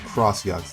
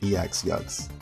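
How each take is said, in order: First: The first part is said as the word cross. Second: The first part is said as the letter name ex. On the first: The speaker calls it right. "I fear this is read as Cross-Yux" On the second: The speaker calls it wrong. "not an E X-Yux"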